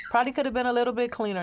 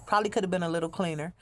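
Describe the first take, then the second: First: A punchier second take, hitting "could" high; emphatic repeat. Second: Said in the usual way. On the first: Shown as a demonstration. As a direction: insist on "could" this time. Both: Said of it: "repeated with emphasis".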